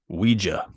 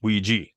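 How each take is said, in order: First: It is said with a British pronunciation. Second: It is said with an American pronunciation. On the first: "In the U K, it is Ouija is the correct term for it" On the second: "So the United States, it's pronounced Ouija"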